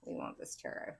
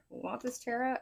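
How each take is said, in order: First: Whispered under the breath; a voiceless murmur of the cards' wish; muttered aside. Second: Rising, questioning recheck; surprised question. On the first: Pretend. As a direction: murmur it to yourself. Cards answer, muttered then asked. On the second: Real, not acted. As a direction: ask it back in disbelief. Checking back as a question.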